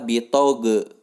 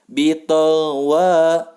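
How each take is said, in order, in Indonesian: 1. Bunyi gh dilepaskan dengan gema yang memantul. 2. Bunyi gh ditahan dengan halus sampai ke w. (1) "banyak yang membaca bitoge. Itu kesalahan yang fatal" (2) "jangan dilepas terlebih dahulu bunyi go sebelum menyebutkan huruf wa"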